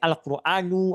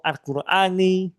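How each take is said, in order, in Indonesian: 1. Kata ini berakhir dengan vokal u pendek. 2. Kata ini berakhir dengan vokal i pendek. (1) "Tapi bisa jadi Al-Quranu" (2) "atau Al-Qurani"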